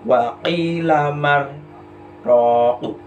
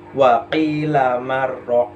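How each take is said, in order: First: It has a short silent break before ro. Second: It is read straight through without a pause. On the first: The speaker calls it right. "Harus ada jedanya" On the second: The speaker calls it wrong. "Itu kan berarti langsung kan"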